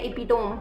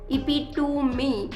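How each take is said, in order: First: The word ends in a single syllable 'tome'. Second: The word ends in two syllables 'tuh-mee'. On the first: This is how people locally say it. The speaker calls it right. "जिसे बोलते हैं इपिटोम, हम अपनी शुद्ध और भग language में" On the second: This is the standard English pronunciation. The speaker calls it wrong. "English वाली दीदी के हिसाब से इसे बोला जाता है इपिटूमी"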